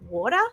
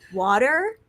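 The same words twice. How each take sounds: First: The word is said in an Australian accent. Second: The word is said in an American accent. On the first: "Because we're like" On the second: "I was saying like"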